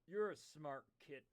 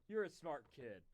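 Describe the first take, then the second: Both takes have the same delivery.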